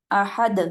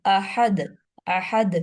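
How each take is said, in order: First: احد said with the dal echoing twice; qalqala demo. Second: احد with a bounced ساکن دال; qalqala demo. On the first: Teacher shows the double sound on احد. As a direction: bounce the دال at the end of احد. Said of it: "آواز دو دفعہ نکال لی ہے". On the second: Teacher corrects the example by demonstrating. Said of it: "دال ساکن ہوگا تو تبھی کلکلا ہوگا". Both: Shown as a demonstration.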